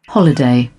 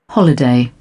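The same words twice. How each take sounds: No difference in how they are said.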